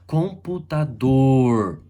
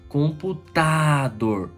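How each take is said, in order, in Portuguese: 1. A sílaba tônica é a última. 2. A sílaba tônica é a penúltima. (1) "oxítona" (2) "paroxítona"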